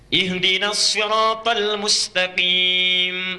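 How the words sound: Sirat begins with emphatic sad, Hafs reading.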